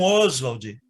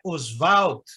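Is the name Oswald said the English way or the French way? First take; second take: English; French. First: The name is pronounced the English way. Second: The name is pronounced the French way. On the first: The speaker calls it wrong. "que é uma pronúncia inglesa" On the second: The speaker calls it right. "porque é uma pronúncia francesa"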